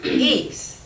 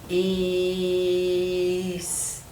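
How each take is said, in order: First: The word is said quickly as one smooth unit. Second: The word is stretched out slowly, sound by sound. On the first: "I can say it fast" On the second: "when I touch the letter, I'm going to say the sound"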